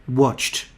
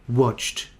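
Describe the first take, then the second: No difference in how they are said.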